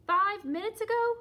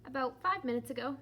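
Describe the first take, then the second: First: Shocked. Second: Said in the usual way. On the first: Acted. Gerald shocked at Piggy's change.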